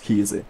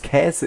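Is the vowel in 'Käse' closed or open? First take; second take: closed; open. First: The first vowel is a closed e sound. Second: The first vowel is an open ä sound. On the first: "einfach ein E draus zu machen" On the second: "Käse ist viel anstrengender"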